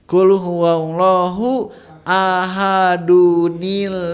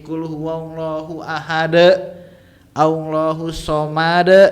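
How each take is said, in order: First: Ahad links onward with an added 'nu-ni' sound. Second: Ahad ends plainly, with no added nun sound.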